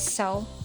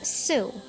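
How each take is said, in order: First: The vowel sounds like 'oh' in 'so'. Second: The vowel sounds like 'oo' in 'sue'. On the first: The speaker calls it right. "but it is really pronounced as sew" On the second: The speaker calls it wrong. "One misconception that Filipino learners have with the word sew is that it is pronounced as"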